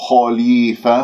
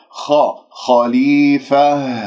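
First: خليفة with rounded lips toward o; wrong rounded kha. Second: خا خليفة slow, heavy unrounded خ; correct heavy kha. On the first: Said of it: "خطأ". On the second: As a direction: draw out خليفة with a heavy open خ. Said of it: "ولا أكور الشفاء". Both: Shown as a demonstration.

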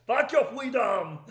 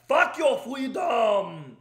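First: Laughing through it. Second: Put-on slow, loud shouted Austrian accent; Arnold shouting. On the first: Real, not acted. Repeating the Arnold line for his laughing wife, laughing through it. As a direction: shout it again while cracking up. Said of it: "my wife is laughing". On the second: Quoting Arnold's lockdown line to viewers, slow Austrian shout. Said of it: "exactly what he said in twenty twenty".

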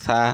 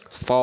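First: সা said thin and light, tongue tip on teeth; a light, unemphatic সা like sin. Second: স said thick and full in the mouth, like sad; a heavy, hollow স from the back. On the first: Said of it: "পাতলা করে সা". (পাতলা করে সা) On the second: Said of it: "স মোটা করে". (মোটা করে স) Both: Shown as a demonstration.

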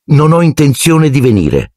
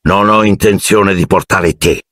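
First: Higher, cool and curt reply; icy. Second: A touch of a growl from the uncle; mild growl. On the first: Harry coldly refuses his uncle, icy reply. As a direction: answer him coldly, not giving an inch. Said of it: "rispose Harry gelido". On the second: Uncle refuses to take Harry, mild growl. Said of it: "ringhiò". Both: A narrator's reading.

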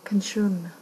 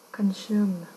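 No difference in how they are said.

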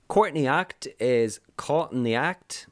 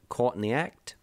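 First: Said in the usual way. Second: A hint of Australian vowels on caught in the act; Australian accent. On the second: Shown as a demonstration. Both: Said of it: "if you say it in an Australian accent".

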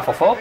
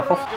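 First: Fofó with stress on the second O; Fofó, stress on the final o, aguda; wrong stress. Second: Fofo with stress on the first O; fofo, stress on the first o, llana; corrected stress. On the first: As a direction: say Fofó, stressing the last syllable. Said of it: "yo siempre le pongo el acento en, en la segunda O". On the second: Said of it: "me habéis dicho que es fofo". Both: Shown as a demonstration.

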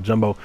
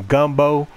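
First: Jumbo said with a J, as the mistaken word; jumbo, the slip he is correcting; wrong word jumbo. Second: Gumbo said with a hard G, the right word; corrected gumbo. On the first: Fixing his own slip: jumbo with a J. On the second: Correcting himself while playing: gumbo with a G. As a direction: gumbo with a G, not a J. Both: Shown as a demonstration. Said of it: "No, not jumbo".

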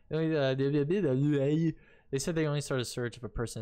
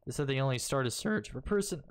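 First: Said in the usual way. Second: Voice crack. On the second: Real, not acted. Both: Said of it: "ugh, voice crack".

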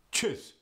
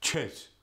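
First: "Cheese." with a short i, said "chiss"; Yiddish cheese. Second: "Cheese." said "chess", short eh vowel; Yiddish cheese. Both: Shown as a demonstration. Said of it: "cheese could be".

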